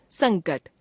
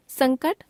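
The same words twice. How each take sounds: First: संकट with the pitch falling away; falling tune. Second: संकट higher, rising at the end; संकट left hanging on a rise; rising tune. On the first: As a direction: close off संकट with a fall. Word list, second of two takes. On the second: Word list, first of two takes. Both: Shown as a demonstration.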